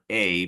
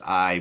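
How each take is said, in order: First: The name rhymes with the word day. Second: The name rhymes with the word eye. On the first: The speaker calls it wrong. "I was saying uh, A" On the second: The speaker calls it right. "I think it's I more more likely"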